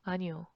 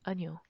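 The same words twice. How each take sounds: First: It is said quickly, squeezed into two syllables. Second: It is said quickly, squeezed into two syllables.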